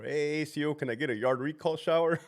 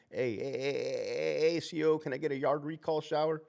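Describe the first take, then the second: First: Lightly voiced inmate asking for a shower; inmate calling out. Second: Lightly voiced inmate calling for the officer; a hint of an inmate hollering from his cell. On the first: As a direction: holler to the officer from the cell. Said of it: "working, like, Charlie two floor". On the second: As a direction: call out to the guard, a touch higher. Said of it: "I had an inmate tell me that".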